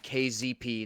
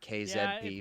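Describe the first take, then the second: First: The letters are said with an American pronunciation. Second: The letters are said with a non-American pronunciation. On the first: "go to the American half of my citizenship and call this guy"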